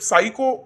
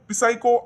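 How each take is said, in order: First: The word starts with an s sound. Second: The word starts with a p sound. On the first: The speaker calls it right. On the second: The speaker calls it wrong.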